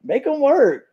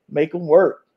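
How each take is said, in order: First: High, emphatic repeat of the demand; super excited. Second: Said in the usual way. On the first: Retold or imitated. Fan retelling their glee at the new rule, super excited. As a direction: push the pitch right up with relish. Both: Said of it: "super excited".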